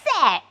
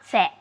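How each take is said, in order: First: The word is said with strong passionate emotion. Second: The word is said flatly, without emotion. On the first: The speaker calls it right. "it carries so much passion, so much emotion" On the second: The speaker calls it wrong. "it's not sad"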